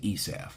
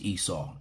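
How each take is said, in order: First: The name ends with a v sound. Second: The name ends with a vowel sound. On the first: This is how the rabbis say the name. "the rabbis say Esav. It's kind of fun saying it that way" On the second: This is how the name is said in English. "in English, it's pronounced Esau"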